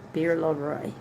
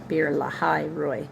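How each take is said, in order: First: The middle part is a single syllable, la. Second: The middle part has two syllables, la-hai. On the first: The speaker calls it wrong. "I'm pronouncing that wrong" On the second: The speaker calls it right. "Lahai, L A H A I"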